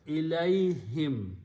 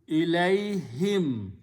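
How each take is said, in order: Both takes have the same delivery.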